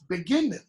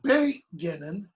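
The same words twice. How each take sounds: First: The stress is on the second syllable. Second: The stress is on the first syllable. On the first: The speaker calls it right. "Because this be is just a little affix that's unimportant" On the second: The speaker calls it wrong. "it's not beginnen"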